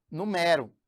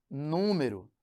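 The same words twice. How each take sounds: First: "numero" stressed on the middle syllable, nu-MÉ-ro; open, stressed E in "numero"; "numero" as the verb, nu-MÉ-ro. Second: "número" stressed on the first syllable, NÚ-me-ro; "número" as the noun, NÚ-me-ro. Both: Shown as a demonstration. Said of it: "que é diferente de".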